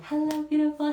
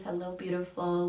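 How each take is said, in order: First: Much higher and louder, a bright sing-song hello; high joyful greeting. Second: Said in the usual way. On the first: Real, not acted. Host joyfully greets a viewer in chat, high sing-song.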